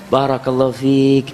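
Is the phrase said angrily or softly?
softly. It is said softly and breathlessly, out of breath. The person is learning to calm the anger with practice. "intonasinya tambah lembut, tambah lembut ... sambil ngos-ngosan dia"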